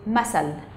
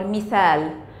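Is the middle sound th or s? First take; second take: s; th. First: The middle consonant is an s sound. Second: The middle consonant is a th sound.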